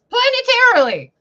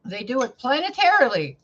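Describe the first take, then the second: First: "planetarily" shouted high and loud; stress on planetarily. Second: Said in the usual way. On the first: Real, not acted. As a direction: hammer "planetarily" in disbelief. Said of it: "repeated emphasised". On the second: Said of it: "repeated word".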